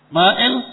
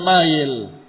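First: A glottal stop separates the two vowels. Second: The vowels run together without a glottal stop. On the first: This is how the name is written. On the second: This is the lighter everyday spoken form.

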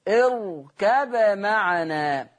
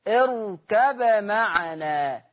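No difference in how they are said.

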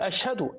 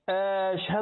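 First: The first vowel is short. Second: The first vowel is drawn out long. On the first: It is a statement of testimony. The speaker calls it right. "احنا بنقول أشهد أخبر" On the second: It becomes a question. The speaker calls it wrong. "جعلها إيه؟ استفهاما"

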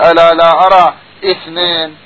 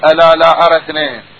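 First: A glottal stop with an i vowel begins the word. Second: The word links on with no glottal stop. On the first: The speaker calls it wrong. "مو يقول ألا لا أرى اثنين بالكسرة" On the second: The speaker calls it right. "المفروض يقول ألا لا أرى اثنين"

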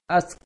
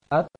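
First: The final consonant is a hissing s sound. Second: The final consonant is a t with light breath. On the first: The speaker calls it wrong. "Jangan sampai baca seperti ini. ... Itu salah" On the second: The speaker calls it right. "posisikan ujung lisan di belakang gigi atas, kemudian ucapkan hurufnya dengan serta memberikan angin kecil"

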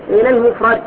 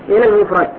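No difference in how they are said.

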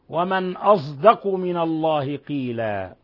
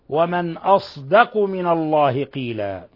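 First: The emphatic s is blended with a z sound. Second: The emphatic s is pronounced pure, without z. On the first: "بإشمام الصاد صوت الزاي" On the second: "بالصاد الخالصة"

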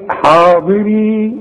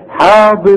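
First: The word ends with a long ee vowel. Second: The word ends in a short i, no long vowel. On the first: The reader is stopping on this word. "لما اجي اقف عليها اقول ايه؟ حاضري" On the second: The reader is joining this word to the next. "الياء بتلغى تماما"

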